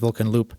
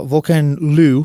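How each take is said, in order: First: The name ends with a closing p sound. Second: The name ends in an open oo sound. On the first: "I always said Volkan Loop" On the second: "which I guess is how you pronounce it now"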